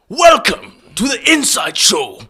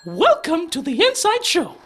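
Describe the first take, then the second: First: It is said in a put-on Vegeta voice. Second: It is said in a put-on Mickey Mouse voice. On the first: "do welcome to the inside show in the Vegeta voice" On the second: "do Mickey Mouse"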